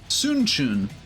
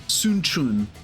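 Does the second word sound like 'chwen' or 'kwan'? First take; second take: chwen; chwen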